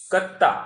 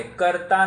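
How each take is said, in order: First: कत्ता with a doubled t and no r, said louder; Prakrit reading. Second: कर्ता with the r sound, kartaa, as the wrong form; Sanskrit-style reading. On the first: Teacher tells students how Prakrit कत्ता is read, loud and clear. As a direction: stress कत्ता as kattaa, double t. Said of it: "कत्ता पढ़ना है". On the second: Teacher warns students off the Sanskrit कर्ता. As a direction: say कर्ता with a clear r. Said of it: "नहीं पढ़ना है". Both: Shown as a demonstration.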